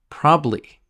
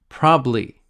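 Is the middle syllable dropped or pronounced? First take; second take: dropped; dropped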